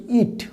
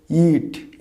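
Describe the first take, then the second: First: "ইট" with a short i, like English it; short vowel. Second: "ইট" with the ee drawn out; long vowel. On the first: Teacher showing the pronoun's sound, short i. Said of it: "হস্য ইট". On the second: Teacher showing the verb's sound, long ee. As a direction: stretch "ইট" like English eat. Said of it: "একটু টান দিয়ে". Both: Shown as a demonstration.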